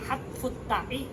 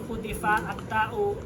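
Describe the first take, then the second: First: The vowels are a-u, with a final i on ta'i. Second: The vowels are u-i-a, with a final u on ta'u. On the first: The word is read as a verbal noun. "Tapi ada bacaan lain" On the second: The word is read as a past-tense verb. "Wasunni kalau yang pertama adalah wasunni"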